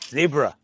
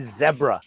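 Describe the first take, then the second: First: Zebra is said with an American pronunciation. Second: Zebra is said with a Canadian pronunciation.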